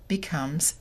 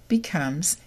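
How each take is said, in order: The two takes are said the same way.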